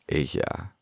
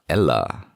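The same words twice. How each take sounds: First: The double L is said as a Y sound. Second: The double L is said as an L sound. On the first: The speaker calls it right. "the phonetic pronunciation is ella" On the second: The speaker calls it wrong. "It's not ella"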